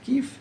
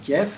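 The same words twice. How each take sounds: First: Kiev is said differently from the French way. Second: Kiev is said the common French way. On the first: This is how it ought to be said. The speaker calls it right. "mais on devrait dire Kiev" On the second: This is how people usually say it in France. The speaker calls it wrong. "on prononce souvent Kiev euh, en, en France"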